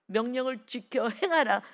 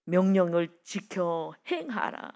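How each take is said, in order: First: Repeated command, picking up in force; firmer, moving preacher's delivery; insistent command. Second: Slow, measured scriptural command; weighty, drawn-out recital; solemn command. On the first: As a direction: press the command home to the congregation. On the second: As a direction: spell out the command slowly and deliberately. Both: Acted.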